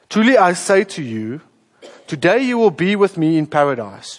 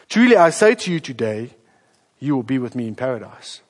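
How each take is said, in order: First: The pause comes before the word 'today'. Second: The pause comes after the word 'today'.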